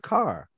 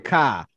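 First: The final R sound is clearly pronounced. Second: The final R sound is dropped. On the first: This is how the speaker's own group says it. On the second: This is how people from another area say it. "the people say car"

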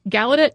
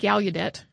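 First: The middle has no 'u' vowel sound. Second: The middle has a 'u' vowel sound.

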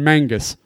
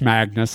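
First: The n sound comes before the g sound. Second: The n sound comes after the g sound. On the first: The speaker calls it wrong. "I was just having fun" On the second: The speaker calls it right. "it's Magnus"

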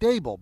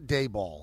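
First: The name rhymes with Abel. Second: The name does not rhyme with Abel. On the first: The speaker calls it right. "It's like Abel" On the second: The speaker calls it wrong. "It's not Daboll"

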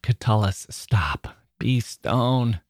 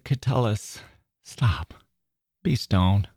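First: The words sound angry and harsh. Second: The words sound pleading and soft. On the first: The speaker is furious with himself. "I read it angrily" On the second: The speaker is begging himself. "you could hear it in a pleading tone too"

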